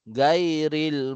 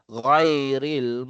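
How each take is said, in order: First: The first consonant is a plain g sound. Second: The first consonant is drawn from the throat. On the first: The speaker calls it wrong. "Yung karamihan" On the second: The speaker calls it right. "ang tunog niya po talaga ay"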